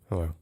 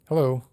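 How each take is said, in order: First: It is said in an even curter, angrier way. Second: It is said in a cheerful, friendly way.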